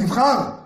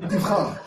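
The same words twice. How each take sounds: First: It is said in a pushy, nagging tone. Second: It is said in a gentle, calm tone. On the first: The choice is being pressed on the child. The speaker calls it wrong. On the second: The choice is left to the child with quiet support. The speaker calls it right.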